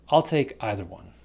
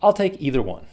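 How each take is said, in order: First: Either said EYE-ther; "either" with eye sound. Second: Either said EE-ther; "either" with long ee. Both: Shown as a demonstration. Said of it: "either or either".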